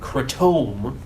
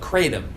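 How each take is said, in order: First: The word has a fancier, more affected pronunciation. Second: The word has a plainer, more relaxed pronunciation. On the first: The speaker seems showy. The speaker calls it wrong. "makes you sound like more of a douche" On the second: The speaker seems unassuming. The speaker calls it right. "it's just more low key"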